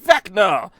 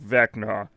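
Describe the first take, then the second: First: It is said in a happy tone. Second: It is said in a sad tone.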